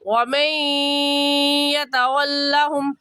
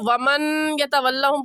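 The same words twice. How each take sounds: First: The n merges nasally into the following y sound. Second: The n is pronounced clearly before the next word. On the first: The speaker calls it right. "सही है" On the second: The speaker calls it wrong. "पढ़ना गलत है"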